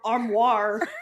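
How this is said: It ends with a hard American R sound. This is how the speaker says it herself. "with my trashy American accent, which is like armoire, arm, armoire, you know, with like the kind of a harder R"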